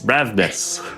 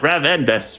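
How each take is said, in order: First: The name is said with two syllables. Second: The name is said with three syllables. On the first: The speaker calls it right. "Two syllables" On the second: The speaker calls it wrong. "it's not Ravendus"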